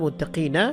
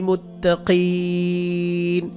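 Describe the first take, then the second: First: The word ends with a final vowel sound. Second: The word ends on a bare consonant. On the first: "নুন সবর না মুত্তাকিনা" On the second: "এখানে থামবো, নুন সাকিন হবে"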